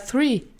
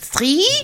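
First: The word has an English th sound. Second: The word has a German-style th sound. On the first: The speaker calls it right. "Und ich dann so" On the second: The speaker calls it wrong. "dieses typisch deutsche three"

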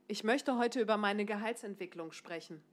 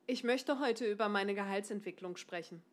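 Both takes have the same delivery.

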